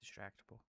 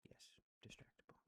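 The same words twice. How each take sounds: First: Said in the usual way. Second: Whispered Distractable, softer and secretive. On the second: Real, not acted. Naming favorite channel to viewers, reverent whisper. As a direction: breathe the name like a secret.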